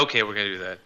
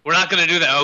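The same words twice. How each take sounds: First: Low, soft resigned giving in; meek giving in. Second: Louder, firm mock refusal. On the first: Pretend. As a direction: give in sheepishly. Caves in right after. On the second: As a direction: put your foot down. Mock refusal, then caving.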